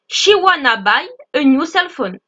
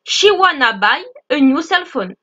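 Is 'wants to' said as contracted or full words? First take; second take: contracted; contracted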